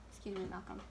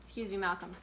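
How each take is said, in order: First: "Excuse me, Malcolm" said again much softer; softer second ask to the cat; quieter repeat. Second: Said in the usual way. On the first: Real, not acted. Host asking the cat Malcolm to move again, much softer.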